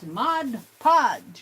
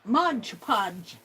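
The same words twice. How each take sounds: First: The first word ends with a 'd' sound. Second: The first word ends with a 'j' sound. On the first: The speaker calls it right. "It's M O D. Mod" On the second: The speaker calls it wrong. "It's not Mod Podge. ... M O D G E"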